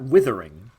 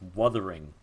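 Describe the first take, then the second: First: The first vowel sounds like the i in 'with'. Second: The first vowel sounds like the u in 'cup'. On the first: The speaker calls it wrong. "It's not Withering" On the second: The speaker calls it right. "It's with a U. So it's Wuthering"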